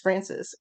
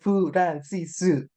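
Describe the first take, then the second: First: It is said the English way, two syllables. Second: It is said the Japanese way, with added vowels. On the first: "my maiden name is Francis" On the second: "there is no Francis, is Furansisu"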